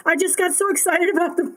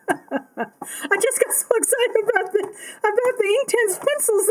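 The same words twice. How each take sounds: First: Said in the usual way. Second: Higher, laughing through the words. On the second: Real, not acted. Apologising to viewers for forgetting, laughing. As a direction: giggle it out, embarrassed.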